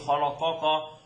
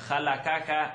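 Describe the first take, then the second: First: Every sound is rounded and heavy. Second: Every sound is open and light. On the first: "Listen to it wrong. everything's O-shaped" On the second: "Listen to it wrong again. everything's open"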